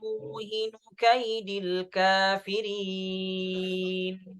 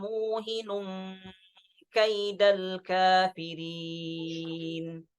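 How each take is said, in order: First: Muhinu runs straight into kaidil with no nasal. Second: A hidden nasal n links muhinun into kaidal. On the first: This is one recognized reading of the phrase. "di riwayat Hafs" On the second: This is another recognized reading of the phrase. "dengan mentanwinkan huruf nun kemudian diikhfakan ke huruf kafnya"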